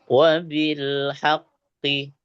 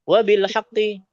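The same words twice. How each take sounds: First: The phrase is read at a slow tempo. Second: The phrase is read at a fast tempo. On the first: "Pokoknya kita pelan bacanya" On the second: "Kalau cepat beda lagi"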